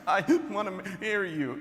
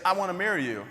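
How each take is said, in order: First: Hammed-up words between sobs, higher; mock sobbing. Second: Said in the usual way. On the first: Crying girlfriend proposing as she leaves, mock sobbing. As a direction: imitate her choking it out through sobs. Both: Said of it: "it was more like in between stops".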